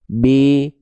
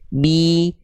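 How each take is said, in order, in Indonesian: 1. Vokal i itu lebih rendah dan kendur. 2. Vokal i itu tinggi dan jelas. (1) "kurang naik tengah lidahnya" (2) "angkat tengah lidah dan rendahkan rahang bawah"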